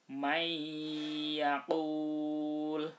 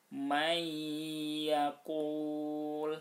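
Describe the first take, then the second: No difference in how they are said.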